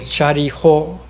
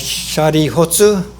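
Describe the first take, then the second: First: The final tsu syllable is dropped entirely. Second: The final tsu syllable is pronounced in full. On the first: "then I abbreviate" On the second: "a tsu like shari hotsu"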